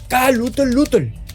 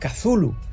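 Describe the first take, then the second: First: The name is said as ka-lutl, ending on tl. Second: The name is said as thu-lu, three syllables. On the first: The speaker calls it right. "me corrigió, diciendo que debería pronunciarse Kalutl" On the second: The speaker calls it wrong. "pronunciando aquella extraña palabra como Cthulhu"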